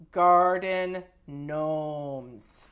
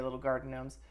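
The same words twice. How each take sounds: First: "Garden gnomes" stretched very slow and louder; drawn-out gushing. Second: Said in the usual way. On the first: Shown as a demonstration. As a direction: savor "Garden gnomes" slowly, each syllable long.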